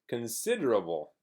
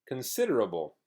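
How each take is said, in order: The two takes are said the same way.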